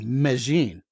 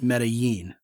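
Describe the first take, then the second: First: The double L sounds like 'ja'. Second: The double L sounds like 'ya'.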